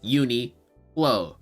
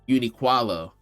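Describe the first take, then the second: First: No extra syllable is added in the middle. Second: An extra syllable is added in the middle. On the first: The speaker calls it right. "but it's Uniqlo" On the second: The speaker calls it wrong. "I don't know where he added the extra qua from"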